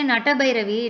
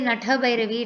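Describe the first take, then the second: First: The second syllable is said as ta. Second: The second syllable is said as tha. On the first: The syllable counts as a different number. The speaker calls it wrong. "it will be ta" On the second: The syllable counts as two. The speaker calls it right. "it will be tha"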